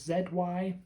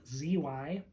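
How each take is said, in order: First: The letter Z is pronounced zed. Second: The letter Z is pronounced zee.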